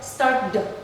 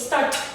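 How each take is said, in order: First: The word ends with a plain d sound. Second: The word ends with a plain t sound. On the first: "we use the d, start d ... It sounds weird" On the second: "We change the ed to t. So we say start. It sounds weird"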